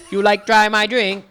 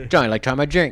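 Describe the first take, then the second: First: High, loud pidgin with mock Chinese tones; mock Chinese-sounding pidgin. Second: Loud, higher, loose-jawed Hawaiian pidgin; open-jawed Hawaiian pidgin. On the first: Coaching a friend on a coworker's phrase, high mock-Chinese pidgin. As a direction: exaggerate the pidgin as if speaking Chinese. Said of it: "like you're trying to speak Chinese". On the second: Showing a friend how pidgin goes, loud open-jawed Hawaiian pidgin. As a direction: drop the jaw and fling out the pidgin. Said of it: "open your jaw a little bit more". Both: Shown as a demonstration.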